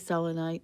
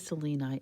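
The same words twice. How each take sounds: First: The word does not begin like Selene. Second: The word begins like the name Selene. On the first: This is how other people say it. "some people say selenite" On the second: This is the speaker's preferred way. "I say selenite. I have a daughter named Selene"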